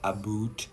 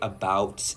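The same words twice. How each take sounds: First: The vowel sounds like a stereotyped Canadian 'aboot'. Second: The vowel sounds like standard American English. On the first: "not about" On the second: "I say about"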